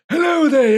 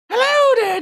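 First: It is said in a put-on old man voice. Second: It is said in a put-on old lady voice.

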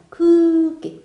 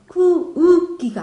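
First: The vowel is held as one long sound. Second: The vowel is broken into two separate sounds. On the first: The speaker calls it right. "쿠를 길게 하는 거죠" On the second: The speaker calls it wrong. "크우기가 아닙니다"

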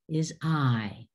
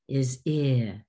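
First: The long vowel as in 'pilot'. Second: The short vowel as in 'sit'. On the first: This is the name of the letter. "The name, as in pilot" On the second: This is the sound the letter makes. "The sound, as in sit"

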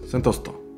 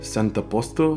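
First: The phrase is squeezed into one quick word. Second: Every syllable of the phrase is said clearly. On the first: "instead of saying center posto, he's just sentosto"

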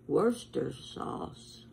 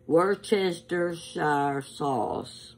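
First: The word is shortened, with syllables dropped. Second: Every written syllable of the word is pronounced. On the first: The speaker calls it right. "In England, they just say Worcester sauce" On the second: The speaker calls it wrong. "I'm going to give you all the syllables. But that's not how you pronounce it"

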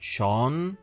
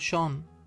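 First: The word is said loudly with emphasis. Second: The word is said softly without emphasis. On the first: The speaker calls it wrong. "لا نرفع صوتنا بها ونقول شون" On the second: The speaker calls it right. "بل نقول شون ونكمل"

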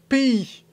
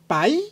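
First: The word ends in two vowels, 'ay-ee'. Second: The word ends in an 'eye' glide sound. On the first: This is the way the speaker learned it. "Moi j'ai appris pays" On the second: This may be the Belgian way of saying it. "Est-ce que vous dites paille ou pays?"

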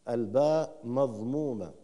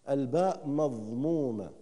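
No difference in how they are said.

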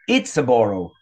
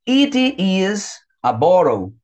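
First: "It is" is contracted to one quick syllable. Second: "It is" is said as two full words.

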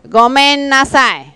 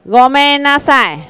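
Both takes have the same delivery.

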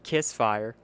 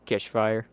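First: The middle sound is a plain 's'. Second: The middle sound is a 'sh'. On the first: The speaker calls it wrong. "It is not Kissfire. That's wrong" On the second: The speaker calls it right. "I'm saying Kishfire"

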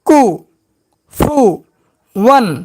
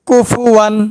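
First: Each syllable is said separately with breaks. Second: The syllables are joined into smooth words. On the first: "এবার ভাঙ্গা ভাঙ্গা উচ্চারণ" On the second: "এবার একসঙ্গে উচ্চারণ করব"

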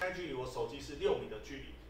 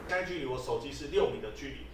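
First: The voice sounds quieter with more room echo. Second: The voice sounds clearer with less room echo.

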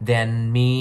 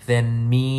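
The two takes are said the same way.

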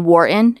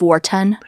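First: The T sound is dropped. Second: The T sound is clearly pronounced. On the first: The speaker calls it wrong. "I say Wharton" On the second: The speaker calls it right. "instead of Wharton"

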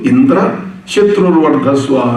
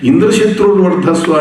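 First: There is a gap after the first part. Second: It is said as one unbroken word. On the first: Indra, the enemy, should grow strong. The speaker calls it wrong. "ఎక్కడ space ఇవ్వకూడదు అక్కడ space ఇచ్చాడు" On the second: The enemy of Indra should grow strong. The speaker calls it right. "ఇంద్రశత్రువర్ధస్వ అనే బదులు"

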